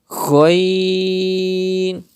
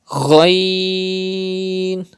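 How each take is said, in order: Both takes have the same delivery.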